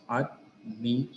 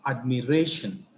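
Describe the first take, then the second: First: "Admiration" split into ad, mi, ray, shun with pauses; syllable by syllable. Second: Said in the usual way. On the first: Shown as a demonstration. Teacher counting the syllables in a word, "Admiration" syllable by syllable. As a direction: break "Admiration" into four separate syllables. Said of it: "how many syllables?". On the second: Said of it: "See the examples here".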